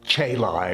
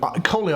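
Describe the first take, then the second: First: It uses the ecclesiastical Latin pronunciation. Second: It uses the classical Latin pronunciation. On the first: "Ecclesiastical Latin or church Latin might sometimes call it Caeli" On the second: "I'm using the classic Latin pronunciation"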